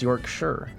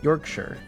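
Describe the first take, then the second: First: The ending is said like the word 'sure'. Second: The ending is said like the word 'sure'.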